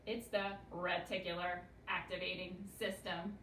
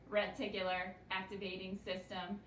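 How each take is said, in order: First: Said in the usual way. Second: Reticular activating system in an even, mechanical robot voice, each syllable spaced. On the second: Shown as a demonstration. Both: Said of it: "We say it like a robot".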